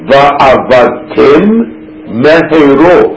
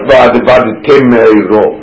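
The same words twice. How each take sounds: First: Both m sounds are pronounced separately and clearly. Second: The two m sounds merge into one. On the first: The speaker calls it right. "it's got to be clear that they have two mems" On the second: The speaker calls it wrong. "And not"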